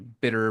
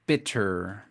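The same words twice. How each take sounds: First: The middle t is a soft quick tap. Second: The middle t is popped crisply. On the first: "Y es muy americano hacer" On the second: "tú siempre puedes tronar la T"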